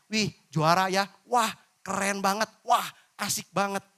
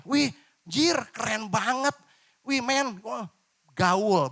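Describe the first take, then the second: First: Bright friendly praise without slang; clean cheerful praise. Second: Loud, higher slangy street hype; mock slangy hype. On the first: Preacher shows the clean alternative, friendly and upbeat. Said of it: "Padahal bisa dirubah dengan kata". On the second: Preacher demonstrates crude youth slang, hammed-up and loud. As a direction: play a swaggering kid showing off with slang. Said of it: "Ini contoh ya". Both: Shown as a demonstration.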